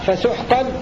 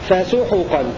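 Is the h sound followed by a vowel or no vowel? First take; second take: no vowel; vowel. First: The h sound is followed by no vowel. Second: The h sound is followed by a short vowel. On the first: "بسكون الحاء" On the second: "هكذا يقرأ الكسائي"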